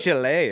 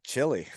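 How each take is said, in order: First: Chile is pronounced the Spanish way, CHEE-leh. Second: Chile is pronounced the English way, CHIL-ee. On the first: "you even say Chile instead of" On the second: "instead of Chile"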